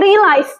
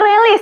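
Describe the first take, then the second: First: The word ends with a long 'lize' sound. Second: The word ends with a short 'lis' sound. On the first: The speaker calls it right. "tapi realize" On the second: The speaker calls it wrong. "bukan realis"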